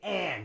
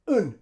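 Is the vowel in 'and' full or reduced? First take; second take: full; reduced. First: The vowel is full, with a clear final d. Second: The vowel is a weak schwa, no final d. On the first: The speaker calls it wrong. "We don't say and" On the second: The speaker calls it right. "We use schwa for the vowel sound in and"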